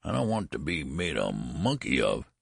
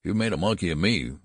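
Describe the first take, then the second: First: Complaining. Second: Mildly fierce, firmer and raised; fierce retort. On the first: Old son objects to the costume, mildly complaining. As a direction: protest lightly as the reluctant old son. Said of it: "he complained". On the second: Angry father answers his complaining son, mildly fierce retort. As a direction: throw it back at him with some heat. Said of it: "retorted Mister Button fiercely". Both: A narrator's reading.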